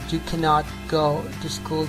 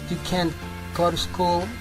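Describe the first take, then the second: First: The negative verb is said in full. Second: The negative verb is contracted. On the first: The statement is firm and important. The speaker calls it right. "she wants to be very clear" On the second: The statement sounds less important. The speaker calls it wrong. "it doesn't sound so interesting, so important"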